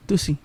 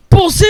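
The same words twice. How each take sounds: First: Small, soft mumble imitating a toddler; retold quiet murmur. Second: High, loud imitation of a toddler's outburst; retold loud yell. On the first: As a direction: say it quietly, almost under your breath. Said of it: "when she said it quietly". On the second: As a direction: blurt it out loud like a little kid. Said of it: "Say it louder".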